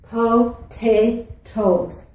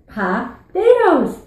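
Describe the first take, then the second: First: It is said in a standard accent. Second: It is said in a Newfoundland accent.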